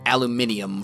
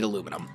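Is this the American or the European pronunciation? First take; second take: European; American. First: It uses the European pronunciation. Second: It uses the American pronunciation.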